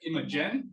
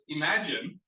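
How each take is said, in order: First: It is pronounced like the name Imogen. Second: It is pronounced like the word imagine. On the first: The speaker calls it wrong. "It sounds like ima yeah, Imogen, but I've been told I've been pronouncing it wrong" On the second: The speaker calls it right. "So it's Imagine"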